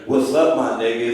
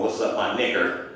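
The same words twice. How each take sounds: First: Easy, friendly hello between buddies; friendly greeting. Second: Lower, colder, a touch menacing; contemptuous slur. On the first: Greeting my man Andrew Jackson, casual and friendly. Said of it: "it's not the same thing as me walking up to him with a whip". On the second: Slaveholder with a whip, cold mock contempt. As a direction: sneer it like a master with a whip. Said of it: "walking up to him with a whip going". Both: Retold or imitated.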